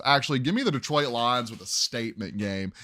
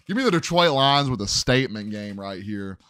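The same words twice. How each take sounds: First: Said in the usual way. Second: Louder, with a punchy confident push; hype-man announcement of the pick; emphatic, louder call. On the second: Shown as a demonstration. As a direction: declare it like a bold lock. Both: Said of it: "I don't know why I said that like that".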